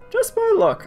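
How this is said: It is said in his put-on reading voice.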